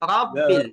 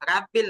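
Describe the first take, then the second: First: The first vowel sounds rounded, like o. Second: The first vowel sounds open, like a. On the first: The speaker calls it right. "একটু সামান্য গোল করে উচ্চারণ করবেন" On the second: The speaker calls it wrong. "রাব্বিল হয়ে গেলে এটা ভুল হবে"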